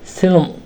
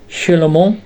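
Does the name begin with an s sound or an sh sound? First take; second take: s; sh. First: The name begins with an s sound. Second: The name begins with an sh sound. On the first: This is how the tribe members said the name. "ele dizia" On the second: This is the normal pronunciation of the name. "em vez do nome de"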